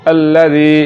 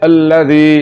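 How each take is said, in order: Both takes have the same delivery.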